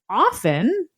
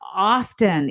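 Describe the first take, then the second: First: The T sound is silent. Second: The T sound is pronounced. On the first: "most people today would say" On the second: "not often, even though historically the T was there"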